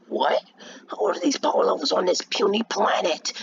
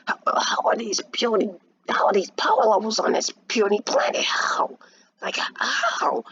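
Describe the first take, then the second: First: High incredulous villain voice; villain character voice. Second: High, breathy villain voice; villain character voice. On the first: Raditz reacting to the power levels, villain character voice. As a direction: put on an alien villain, baffled and pitched up. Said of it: "that was a good voice". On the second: Raditz astonished at the puny planet, villain character voice. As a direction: redo the villain in a strained, whispery high pitch. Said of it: "that was a kinda good voice". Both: Acted.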